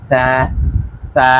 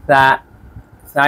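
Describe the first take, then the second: The two takes are said the same way.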